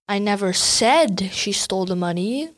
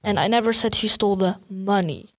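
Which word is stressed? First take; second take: said; money. First: The stress is on "said". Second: The stress is on "money".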